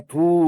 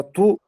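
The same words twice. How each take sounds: First: "ту" with a drawn-out vowel; stretched, sustained "ту"; long syllable. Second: Short "ту", not lengthened; quick one-beat "ту"; short syllable. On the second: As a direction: say "ту" briefly. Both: Shown as a demonstration. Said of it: "ушул эки нерсени айырмалап".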